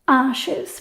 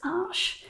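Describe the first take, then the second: First: It sounds like the English plural of arch. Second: It is said with a French pronunciation. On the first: The speaker calls it wrong. "plural, and that was wrong too" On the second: The speaker calls it right. "the correct pronunciation is Arches"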